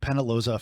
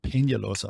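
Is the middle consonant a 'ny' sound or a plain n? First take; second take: plain n; ny. First: The middle consonant is a plain n sound. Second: The middle consonant is a palatal ny sound. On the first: The speaker calls it wrong. "I've been calling you Penaloza for my entire time" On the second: The speaker calls it right. "sounds way better"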